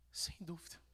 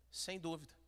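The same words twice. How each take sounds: First: Whispered sem dúvida, barely voiced; hushed sem dúvida. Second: Said in the usual way. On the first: Shown as a demonstration. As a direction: breathe sem dúvida softly. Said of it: "whispered take". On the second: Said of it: "repeats phrase in contrast".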